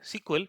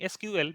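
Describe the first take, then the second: First: It is said smoothly as one word. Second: It is said as separate letters with pauses. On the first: The speaker calls it right. "people usually use the word S Q L, which is much more easier and convenient to say" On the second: The speaker calls it wrong. "because you have to take a lot of pauses in that"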